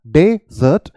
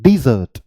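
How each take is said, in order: First: डेजर्ट with an open "de" at the start; desert with de. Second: डिजर्ट with a short "di" and stress on "zert"; dessert with di. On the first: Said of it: "वहाँ पर आपने डे बोला". (डेजर्ट में "डे" बोलें) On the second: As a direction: start डिजर्ट with "di", not "de". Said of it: "यहाँ पर आपको क्या बोलना है". (डिजर्ट में "डी" बोलें, "डे" नहीं) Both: Shown as a demonstration.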